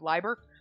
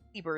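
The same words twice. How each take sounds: First: The first syllable sounds like the start of liable. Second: The first syllable sounds like the start of Libra. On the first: The speaker calls it wrong. "Instead of Liber. Like you're liable for the" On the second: The speaker calls it right. "Liber is better. Like Libra"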